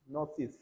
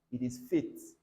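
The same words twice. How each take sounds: First: "Faith" said with air through the teeth, th sound; the wrong th in "Faith"; breathy th in Faith. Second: "Faith" said with a hard T, no th sound; the T of "Faith" like a plain T. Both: Shown as a demonstration.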